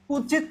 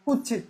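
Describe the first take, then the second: First: Said in the usual way. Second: কুচ্ছিত with a double chh, kuchchhit; mutual assimilation. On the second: Shown as a demonstration. Teacher giving an example of assimilation, কুচ্ছিত said kuchchhit. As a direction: merge the ts into chchh in কুচ্ছিত. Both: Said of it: "অন্যান্য সমীভবন।".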